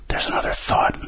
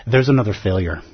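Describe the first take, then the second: First: Whispered inner voice. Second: Said in the usual way. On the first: Shown as a demonstration. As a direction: breathe it like the mind's voice. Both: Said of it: "I'll translate that for you".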